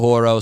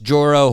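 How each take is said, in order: First: The word begins with an H sound. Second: The word begins with a J sound. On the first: "maybe it's a Latin pronunciation. Maybe it's a Horo" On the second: "I guess it's pronounced Joro spider"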